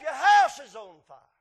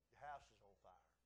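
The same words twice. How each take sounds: First: It is said forcefully and urgently. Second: It is said timidly and hesitantly.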